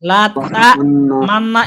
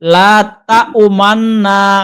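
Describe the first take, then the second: First: There is no u sound after ta. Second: Only a faint hint of u follows ta. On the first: The speaker calls it wrong. "লা তা মান্না এমনও বলা যাবে না" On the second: The speaker calls it right. "বরং পেশ উচ্চারণ করতেছি মনে হবে এরকম। পেশের ইঙ্গিত আসবে।"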